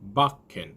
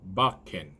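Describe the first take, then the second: First: The k sound is held and doubled. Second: The same.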